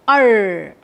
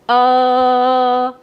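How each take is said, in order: First: The vowel is said with an r sound. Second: The vowel is said with no r sound. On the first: "in American English we pronounce it as" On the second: "In British English we pronounce it as"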